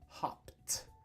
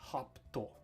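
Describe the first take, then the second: First: It ends in a plain T sound. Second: It ends with an extra vowel syllable. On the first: The speaker calls it right. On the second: The speaker calls it wrong. "not hopto"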